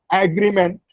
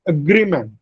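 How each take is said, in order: First: "agreement" with a full "ag" at the front; common Indian pronunciation. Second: "agreement" as uh-GREE-ment, falling at the end; weak first vowel, stressed GREE in "agreement"; stress on second syllable. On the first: Teacher shows students the wrong "agreement", stressed on AG. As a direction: open the first vowel of "agreement", AG-ree-ment. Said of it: "which is the common Indian pronunciation". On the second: Teacher corrects students' "agreement", stressing GREE. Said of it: "The second syllable, gri, receives a stress". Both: Shown as a demonstration.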